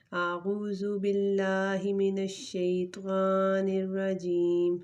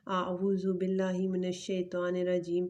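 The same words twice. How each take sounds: First: اعوذ باللہ recited slowly, Quranic chant style; slow recitation. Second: Said in the usual way. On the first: Shown as a demonstration. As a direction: intone it slowly like prayer recitation. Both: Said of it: "تو شروع کرتے ہیں".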